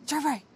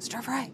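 First: High, firmer call; louder searching call. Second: High, contained call; searching call. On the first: Cordelia still searching for Stir Fry, raised call. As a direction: call out the name with more push. Cordelia calls a second time. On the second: Cordelia looking by the food for Stir Fry, searching call. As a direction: call the name at moderate volume. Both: Acted.

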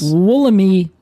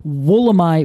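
First: "Wollemi" drawn out, ending in long "ee"; as-read pronunciation. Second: "Wollemi" with the last syllable like "my"; Australian pronunciation. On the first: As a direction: slowly say "Wollemi" with final "mee". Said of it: "the way that I would read it". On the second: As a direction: say "Wollemi" rhyming its end with "eye". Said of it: "they would pronounce it". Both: Shown as a demonstration.

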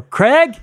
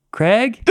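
First: Much higher, louder shout of the name; loud call. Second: Rising call up the rock face, higher and louder. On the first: Climbing partner shouting again for Craig after no answer, loud worried yell. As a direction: yell his name up the wall, now worried. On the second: Climbing partner calling up the cliff for Craig, rising call. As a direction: call his name up to the ledge, unsure. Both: Retold or imitated.

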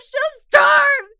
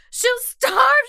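First: Starve shouted even higher and louder, breaking point; full shout. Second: Starve cried high and loud in panic; high frantic plea. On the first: The captive shouts at rescuers about her mother, full shout. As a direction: yell it out at the top of the voice. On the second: The captive begs about her mother, high frantic plea. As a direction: plead it, voice climbing. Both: Acted. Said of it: "I kept droning on the same thing".

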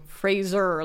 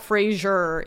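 First: "Fraser" said with a z, rhyming with razor; hard z in "Fraser", like razor; corrected pronunciation. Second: "Fraser" said with a zh sound, FRAY-zhur; mispronounced name. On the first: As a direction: say "Fraser" slowly as FRAY-zer. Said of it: "like razor". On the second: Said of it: "saying his name wrong. It's not Fraser". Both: Shown as a demonstration.

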